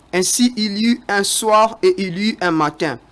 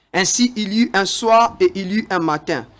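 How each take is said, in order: Both takes have the same delivery.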